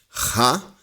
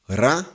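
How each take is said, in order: First: A raspy, scraping sound from the throat. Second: A strong, forceful sound from the throat. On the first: "o som da garganta rasgada" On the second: "o som da garganta forte"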